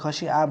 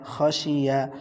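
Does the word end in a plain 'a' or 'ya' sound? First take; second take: plain a; ya. First: The last syllable is said as plain 'a'. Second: The last syllable is said as 'ya'. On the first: The speaker calls it wrong. "অনেকে খশি আ বলবেন, আ বলা যাবে না" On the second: The speaker calls it right. "ইয়া জবর ইয়া"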